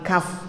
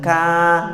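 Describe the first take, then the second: First: It is said as kaf, ending in f. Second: It is said as a short ka, no f. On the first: The speaker calls it right. "tapi kaf, kan itu huruf kaf" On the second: The speaker calls it wrong. "Jangan ka"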